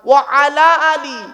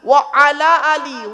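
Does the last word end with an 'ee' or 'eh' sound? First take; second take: ee; ee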